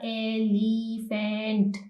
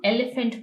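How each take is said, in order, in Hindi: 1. इस शब्द में स्वरों को लंबा खींचकर बोला जाता है। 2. इस शब्द में स्वरों को छोटा रखा जाता है। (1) "इस तरह हम इसको प्रोनाउंस नहीं कर रहे" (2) "ये हमारे पास हाफ वॉइस दे रहा है"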